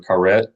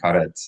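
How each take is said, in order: First: The final T is swallowed, not clearly heard. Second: The final T is clearly released and heard. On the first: The speaker calls it wrong. "we have a uh, a habit of not pronouncing T's at the end of words as a T" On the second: The speaker calls it right. "We need to hear the T"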